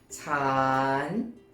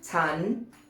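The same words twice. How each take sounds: First: The word is said with a rising tone. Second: The word is said with a high tone. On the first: "rising tone" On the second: "is normally pronounced with a high tone"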